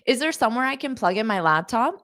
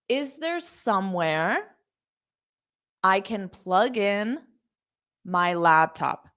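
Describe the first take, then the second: First: The sentence is spoken quickly. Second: The sentence is spoken slowly. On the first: "I'll say it fast" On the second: "I said it slow"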